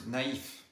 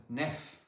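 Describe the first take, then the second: First: Naïf in two syllables, "na-eef"; dissociated vowels. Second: Nef as one syllable with open "eh"; mistaken pronunciation. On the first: Teacher showing the word with tréma, two-syllable naïf. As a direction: keep a and i separate in naïf. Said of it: "If you remove the tréma". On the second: Teacher showing what removing the tréma does, one-syllable nef. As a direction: merge the vowels of naïf into "nef". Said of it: "it would be pronounced". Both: Shown as a demonstration.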